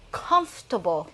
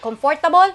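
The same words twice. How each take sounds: First: It is pronounced the way native English speakers do. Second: It is pronounced the way Filipino speakers learned it. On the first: The speaker calls it right. "that's how they say it" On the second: The speaker calls it wrong. "It's not comfortable"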